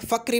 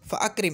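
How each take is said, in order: First: Fa runs straight into krim with no stop. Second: A glottal stop separates fa from akrim. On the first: The speaker calls it wrong. "इसको मैं फ़क्रिम नहीं पढ़ सकता" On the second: The speaker calls it right. "जैसे अगर मैं बोलूँगा फ़अक्रिम"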